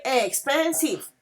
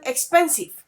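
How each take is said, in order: First: "expensive" broken into three drawn-out syllables. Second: Said in the usual way. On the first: Shown as a demonstration. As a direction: sound out each syllable of "expensive". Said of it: "if you say it like".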